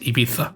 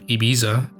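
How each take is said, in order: First: The z is pronounced like a th. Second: The z is pronounced like an s.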